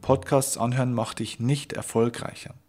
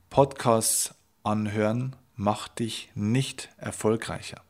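First: "Podcasts" stressed, the rest run through at an even normal pace; repeated at normal pace. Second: Slow, weighty, each word set apart; slow emphatic statement. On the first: Coach repeating his message to the listener, at an even normal pace. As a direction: say it again briskly, leaning on "Podcasts". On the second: Coach stating his first message to the listener, slow and weighty. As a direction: lay down the first message slowly and firmly. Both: Shown as a demonstration. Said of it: "Ich wiederhole das gerne nochmal".

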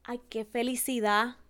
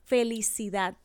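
First: Felicidad with no final d; ay, qué felicidad, casual and rising; felicidá sin d; dropped final d. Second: Felicidad with a clear final d; final d sounded. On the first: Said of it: "omitimos la última letra". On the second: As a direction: land the d in felicidad. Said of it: "en vez de decir". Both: Shown as a demonstration.

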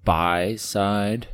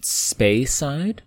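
First: Speyside with SPEY like "spy", questioning; trial pronunciation. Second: Speyside with SPEY like "spay", questioning; trial pronunciation. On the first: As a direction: try "Speyside" as SPY-side, asking. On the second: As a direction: try "Speyside" as SPAY-side, pitched up. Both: Shown as a demonstration. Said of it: "if we're actually pronouncing that right".

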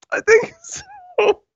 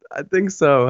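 First: High, slow, laughing through it; squeaking through the giggles; laughing squeal. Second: Said in the usual way. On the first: Real, not acted. Laughing after hearing herself.

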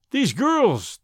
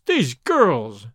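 First: Higher exasperated exclamation; exasperated cry. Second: Said in the usual way. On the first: A narrator's reading. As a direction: throw up your hands at them. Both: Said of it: "he cried".

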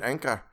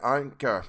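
First: Said in the usual way. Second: "anchor" with an open ah, no final r; mispronounced "anchor". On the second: Real, not acted. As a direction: say "anchor" as AHN-kuh. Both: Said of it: "Just say anchor!".

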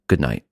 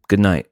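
First: Terse, low good night, imitating his wife; retold wife's minimal, lower-pitched reply; curt reply. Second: Said in the usual way. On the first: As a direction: toss back a brief, low good night. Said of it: "Here was her response". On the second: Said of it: "I pull a headphone out and I say".

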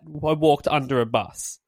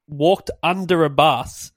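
First: "walked" stressed, the rest falling. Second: "walked" slow and weighted; stress on walked. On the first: Questioning the lyric's logic, stressing "walked". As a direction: hit "walked" in disbelief. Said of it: "what are they trying to get at". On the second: Pointing out the lyric says walked, slow stress on "walked". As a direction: lean on "walked" to contrast with being hit. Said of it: "not I was, so I was hit by a bus". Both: Shown as a demonstration.

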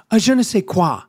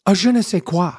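First: "je ne sais quoi" in a mock French accent; "je ne sais quoi" with a hammed-up French accent; French accent, second try. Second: French accent. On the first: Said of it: "I'll do it again". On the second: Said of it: "I've been working on my French accent". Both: Shown as a demonstration.

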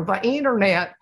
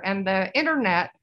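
First: Lightly imitated Bush, leaning on "internet"; a hint of Bush stressing "internet"; light mock presidential "The internet"; George Bush impression. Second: Said in the usual way. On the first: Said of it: "George Bush used to go".

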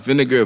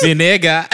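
First: Vinegar said as "vuh-NEG-uh", stress on second syllable; Bahamian pronunciation. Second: Vinegar echoed slowly as "vi-NEH-ga"; drawn-out Vinegar, "vi-NEH-ga"; Bahamian pronunciation. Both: Retold or imitated. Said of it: "My mom pronounced vinegar vinegar".

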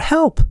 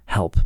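First: High mock cry of help, pitched way up. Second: Said in the usual way. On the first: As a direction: act out Peter calling Help! as he sinks, much higher. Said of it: "he just cries out". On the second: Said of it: "He just cries out".

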